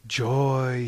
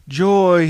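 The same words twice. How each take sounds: First: Said in the usual way. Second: Louder, higher cry of joy; joyful cry. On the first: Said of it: "he cried". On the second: A narrator's reading. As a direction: shout it out to the open sea. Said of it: "he cried again".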